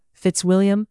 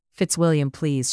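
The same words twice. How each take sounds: First: High, sighed-out name; sighing. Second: Begging. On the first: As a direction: breathe his name on a sigh. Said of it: "Elizabeth sighed". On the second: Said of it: "she begged". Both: Acted.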